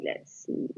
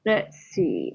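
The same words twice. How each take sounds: First: Breathy under-the-breath repeat, much softer; half-whispered "let's see" to yourself while thinking; muttered to self. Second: Said in the usual way. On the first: Real, not acted. Checking the chart.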